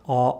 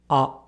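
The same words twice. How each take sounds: First: Back vowel with tongue pulled back, like father. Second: Central vowel with tongue slightly further forward. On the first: The speaker calls it wrong. "The Japanese sound is not A" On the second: The speaker calls it right. "tongue position is slightly more forward than the vowel found in father"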